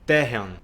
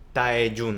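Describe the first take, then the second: First: The name is said with Korean-style sounds. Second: The name is said with Spanish-style sounds. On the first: The speaker calls it right. "En realidad no es [name], es [name]" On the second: The speaker calls it wrong. "la forma que nosotros como hispanohablantes intentamos romanizar"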